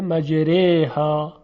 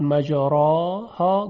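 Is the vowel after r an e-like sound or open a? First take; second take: e-like; open a. First: The vowel after r leans toward an e sound. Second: The vowel after r is a full open a. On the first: The speaker calls it right. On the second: The speaker calls it wrong. "به جای اینکه بگوید مجراها"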